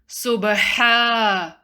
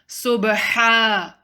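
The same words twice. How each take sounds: Both takes have the same delivery.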